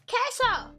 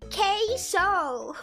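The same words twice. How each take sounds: First: It is said in her ordinary way. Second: It is said in a heavy American accent.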